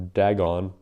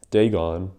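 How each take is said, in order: First: "Dagon" with the first vowel as in dad; pronounced DAG-on. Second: "Dagon" with the first vowel as in day; pronounced DAY-gon. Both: Shown as a demonstration. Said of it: "or Dagon".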